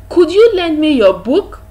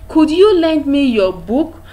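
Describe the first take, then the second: The two takes are said the same way.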